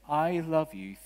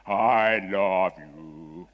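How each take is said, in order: First: Lightly voiced woman, higher and clear; clear woman's voice. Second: Loud, lower, drawn-out masculine God voice; booming heavenly voice. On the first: Preacher relaying what his wife heard, in a lightly voiced clear woman's voice. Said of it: "woman's voice very clearly saying". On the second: Acted. Preacher mocking how God is imagined, in a booming masculine voice. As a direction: boom it out slowly like a man's voice from heaven. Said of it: "booming masculine voice from heaven".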